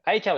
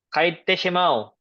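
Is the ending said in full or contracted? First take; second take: contracted; full. First: The ending is contracted to a short chau. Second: The ending is said in full as te shimau.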